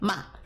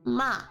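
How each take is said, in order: First: The pitch falls sharply from high. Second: The pitch dips down then rises. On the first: "Fourth tone going down" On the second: "Third tone going down, then up"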